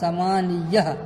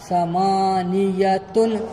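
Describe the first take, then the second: First: The word ends with an -h sound. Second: The word ends with a -tun sound. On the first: The reading stops at the end of a verse. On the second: The word is read in its full form.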